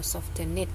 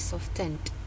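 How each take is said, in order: First: The ending is said as a separate extra syllable. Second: The ending is only a final consonant sound. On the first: The speaker calls it wrong. "Jadi bukan softened" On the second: The speaker calls it right. "tapi bacanya jadi softened"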